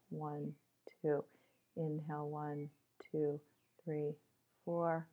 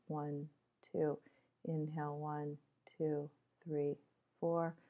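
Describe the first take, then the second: No difference in how they are said.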